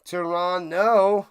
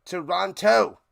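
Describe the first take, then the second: First: Toronto said slowly and loudly, with no T before the final o: "Tor-on-oh"; no second T. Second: Toronto with the second T clearly said: "Tor-on-toh"; second T sounded. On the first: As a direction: drop the second T in Toronto and stretch it out. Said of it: "Don't pronounce the second T in Toronto". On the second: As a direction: put the second T back into Toronto. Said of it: "is that a better way to say it". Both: Shown as a demonstration.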